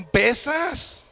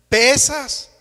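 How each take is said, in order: First: Higher whining "pesas"; "pesas" said high, stretched and plaintive; ant whining. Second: Louder insistent "pesas"; "pesas" hit loud and insistent, a mock outcry; ant exclaiming. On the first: Retold or imitated. Ant tells the elephant he's heavy, high plaintive "pesas". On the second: Ant insists to the elephant, loud indignant "pesas".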